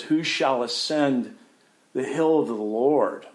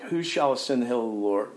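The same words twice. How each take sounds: First: Lifted, louder question; proclaimed, ringing psalm question; psalmist's cry. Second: Said in the usual way. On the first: Acted. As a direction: call it out like a psalm. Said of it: "the psalmist who says".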